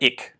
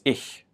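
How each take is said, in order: First: The ch sound is harsh and throaty. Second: The ch sound is soft and breathy. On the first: The speaker calls it wrong. "quite harsh" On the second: The speaker calls it right. "it's much softer"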